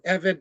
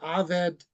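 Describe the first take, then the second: First: The word begins with an 'e' vowel. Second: The word begins with an 'a' vowel. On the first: The word stands in the middle of a phrase. "Eved is the word for servant or slave" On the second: The sentence or phrase has ended. "We know we've come to the end of a sentence or a phrase when a e word becomes an a word"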